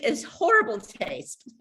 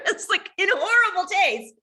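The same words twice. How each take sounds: First: Said in the usual way. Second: Pitched up high through a laugh. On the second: Real, not acted. Admitting the joke was tasteless, laughing and pitched high. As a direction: laugh it out, much higher. Repeats phrase, second laughing.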